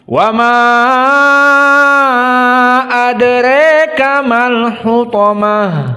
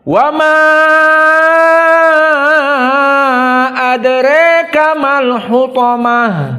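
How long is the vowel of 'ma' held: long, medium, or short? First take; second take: long; long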